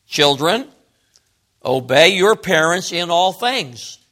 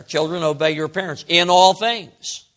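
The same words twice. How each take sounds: First: Said in the usual way. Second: "all things" leaned on; stress on ALL. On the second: Shown as a demonstration. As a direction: put a little emphasis on "all". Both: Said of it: "Paul put a little emphasis".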